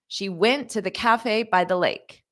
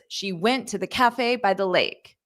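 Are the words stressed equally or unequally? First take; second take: unequally; unequally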